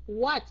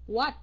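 Both takes have the same delivery.

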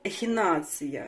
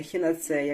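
First: The word ends with the sound '-tsiya'. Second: The word ends with the sound '-tseya'. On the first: The speaker calls it right. "вірно" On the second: The speaker calls it wrong. "а не ехінацея"

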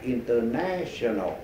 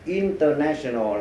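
First: The stress is on the third syllable. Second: The stress is on the first syllable. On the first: The speaker calls it right. "bây giờ mình sửa lại" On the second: The speaker calls it wrong. "mình đã nhấn mạnh vào đầu là mình sai rồi"

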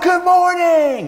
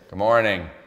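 First: The greeting is said with high energy. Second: The greeting is said with low energy.

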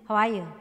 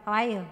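First: It is said quickly with an American accent. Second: The same.

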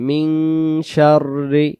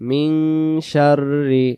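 No difference in how they are said.

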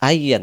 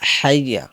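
First: The word begins with a glottal stop. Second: The word begins with an h sound. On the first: The speaker calls it wrong. "আইয়া আলা সলা আমজা দিয়ে উচ্চারণ করেন তাহলে ভুল হবে" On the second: The speaker calls it right. "বলতে হবে হাইয়া"

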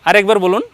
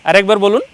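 No difference in how they are said.

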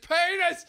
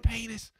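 First: The word is shouted loudly. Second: The word is said quietly. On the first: The game is taken too far. "takes it too far and goes" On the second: The word goes unnoticed. "And she doesn't notice"

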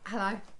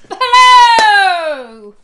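First: It is said in a flat, dull way. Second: It is said in a lively, energetic way.

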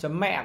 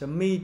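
First: It is pronounced the Vietnamese way, with Vietnamese tone. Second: It is pronounced the English way, like 'mee'. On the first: "tiếng Việt thì mình có thể nói là .mẹ cũng được" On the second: "tiếng Anh"

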